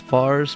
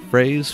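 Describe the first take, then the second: First: The name sounds like 'Fars', one syllable. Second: The name sounds like 'Phrase', one syllable. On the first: "Commonly mispronounced" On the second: "Commonly mispronounced as Phrase"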